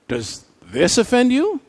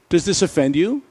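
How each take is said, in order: First: It is asked in a surprised tone. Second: It is asked as a plain, neutral question. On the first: The reaction was unexpected. "Maybe Jesus was surprised" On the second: It is a simple request for information. "maybe Jesus simply asked a question"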